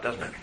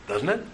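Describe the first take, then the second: First: Said in the usual way. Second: "Doesn't it?" with the pitch sliding up on "it"; rising question tune. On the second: Shown as a demonstration. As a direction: let "Doesn't it?" climb at the end like a real question. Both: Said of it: "It just went up".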